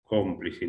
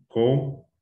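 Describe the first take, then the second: First: Said in the usual way. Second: "Cómplice" as cóm... plice, long gap; syllable by syllable. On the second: Shown as a demonstration. Teacher separating syllables first, syllable by syllable. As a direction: split "Cómplice" after a drawn-out first syllable. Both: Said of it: "Separamos de sílaba primero".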